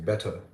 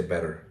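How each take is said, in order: First: Better said the British way; better with a crisp t and silent final r; British pronunciation. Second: Better said the American way; American pronunciation. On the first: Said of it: "I used the British pronunciation". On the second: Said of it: "the American version of the word better". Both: Shown as a demonstration.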